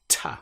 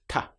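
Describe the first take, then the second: First: A sharp, crisp British-style t sound. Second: A softer, dental European-style t sound. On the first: "quite different to the way it is pronounced in other parts of the world" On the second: "In Europe, this sound will often be pronounced like ta"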